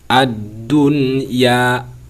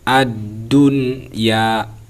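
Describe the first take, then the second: Both takes have the same delivery.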